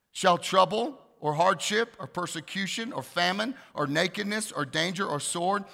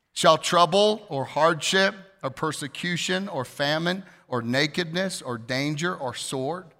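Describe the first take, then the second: No difference in how they are said.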